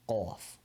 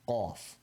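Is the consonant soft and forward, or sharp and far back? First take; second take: sharp back; sharp back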